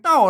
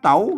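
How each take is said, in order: First: The syllable is said with a falling tone. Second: The syllable is said with a rising tone. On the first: "ใส่ไม่โทเต้า" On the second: "ใส่ไม่จะได้ว่าเต๋า"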